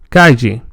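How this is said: The double L sounds like ly. Some older speakers in Spain say it this way. "formerly pronounced as l"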